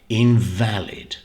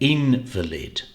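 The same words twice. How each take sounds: First: The stress is on the middle syllable. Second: The stress is on the first syllable. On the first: It means not correct or not proper. "the stress is on the middle syllable, V A L" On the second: It means a very sick or injured person. "the stress here is on the first syllable, in"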